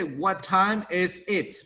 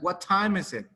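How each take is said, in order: First: The words are said separately, one by one. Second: The words are joined smoothly into one unit. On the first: The speaker calls it wrong. "We don't say" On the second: The speaker calls it right. "All together"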